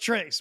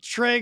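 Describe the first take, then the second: First: The word ends with a clear s sound. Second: The word ends on a vowel with no s. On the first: The speaker calls it wrong. "probably one of the biggest mispronounced words" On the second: The speaker calls it right. "how does anybody ever think Trey goes Trace?"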